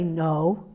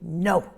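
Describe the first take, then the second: First: The word is said softly, without a sharp edge. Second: The word is said short, low and sharp. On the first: The speaker calls it wrong. "You don't say no" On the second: The speaker calls it right. "you say no. ... It's sharp"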